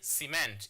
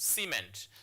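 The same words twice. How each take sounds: First: The stress is on the second syllable. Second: The stress is on the first syllable. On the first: The speaker calls it wrong. "You don't say cement" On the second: The speaker calls it right. "it's cement. ... you place your stress marker on the first syllable"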